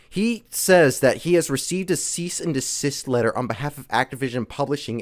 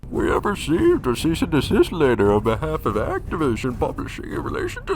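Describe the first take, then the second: First: It is said in his normal voice. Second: It is said in a put-on Bane voice.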